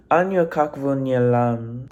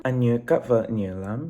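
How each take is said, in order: First: Anh yêu các vợ nhiều lắm said flat, English-style vowels, tones barely marked; "Anh yêu các vợ nhiều lắm" with a careful learner's guess at each syllable; own first try at Vietnamese. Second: Anh yêu các vợ nhiều lắm copying the Google tones, rising on các; corrected pronunciation. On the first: Vlogger trying the fan's Vietnamese phrase before checking Google, careful learner pronunciation. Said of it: "So I'm gonna try to say it right now".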